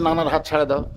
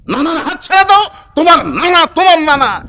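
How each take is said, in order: First: Said in the usual way. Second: High, raised-voice scolding order; acted sharp command. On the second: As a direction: repeat the order urgently at a high pitch. Ali আবার জোর দিয়ে বলছে. (চড়া গলায় ধমকের সুরে আদেশ)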